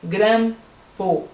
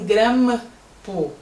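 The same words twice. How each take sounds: No difference in how they are said.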